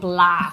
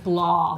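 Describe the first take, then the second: First: The word is said with a local Waterford pronunciation. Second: The word is said with a fancy pronunciation. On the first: This is how locals say it. The speaker calls it right. "that's not how they say it in Waterford, Kevin. They say blah" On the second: Someone else says it this way. The speaker calls it wrong. "Kevin pronounces it kind of fancy. He says blah"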